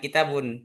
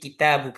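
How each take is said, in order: First: The word ends with an added n sound. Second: The word ends on a vowel, without n. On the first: The speaker calls it wrong. "Kalau ada alif lam, jangan kitabun" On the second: The speaker calls it right. "Tapi kitabu, karena sudah diganti dengan alif lam"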